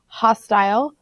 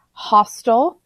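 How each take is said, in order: First: "hostile" ending like "tile"; "hostile" with a full long i in the second syllable; long-i pronunciation. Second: "hostile" ending like "hostel"; "hostile" with a reduced, unstressed second syllable; short-ending pronunciation. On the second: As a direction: say "hostile" as HOS-tul. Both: Shown as a demonstration. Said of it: "It's pronounced two different ways".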